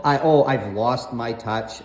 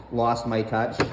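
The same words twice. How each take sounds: First: Said in the usual way. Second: Lost my touch, low and mocking as if in air quotes; sarcastic air quotes. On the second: Shown as a demonstration. Son mocks mom's claim with sarcastic air quotes. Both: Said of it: "And I say that with finger quotations".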